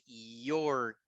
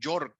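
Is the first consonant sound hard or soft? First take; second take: soft; hard. First: The first consonant is a soft, vowel-like glide. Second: The first consonant is a hard Spanish-style y. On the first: The speaker calls it right. "it's York" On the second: The speaker calls it wrong. "it's not New York"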